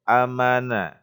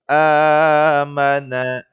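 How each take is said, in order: First: The first vowel is held short. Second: The first vowel is held long. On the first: The speaker calls it wrong. "jangan amana" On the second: The speaker calls it right. "dipanjangkan sepanjang dua harakat"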